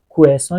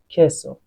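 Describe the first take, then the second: First: The first vowel sounds like o. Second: The first vowel sounds like e. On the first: The speaker calls it wrong. "ببین کوسو نیست" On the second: The speaker calls it right.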